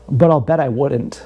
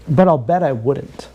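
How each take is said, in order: First: Said in the usual way. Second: "But I'll bet I wouldn't" drawn out slowly; slower repeat. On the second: Shown as a demonstration. Repeating his bet to the viewers, slowed down. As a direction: lean on it and slow down.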